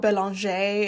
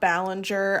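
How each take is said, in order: First: The name is said as Belanger. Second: The name is said as Ballinger. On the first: The speaker calls it right. "Her name is Michelle Belanger" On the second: The speaker calls it wrong. "it's not Ballinger"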